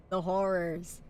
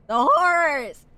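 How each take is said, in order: First: Said in the usual way. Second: Loud, high mock-dramatic wail; theatrical cry. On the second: Streamer hamming up a love of horror, loud mock-dramatic cry. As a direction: cry it out in hammed-up dread.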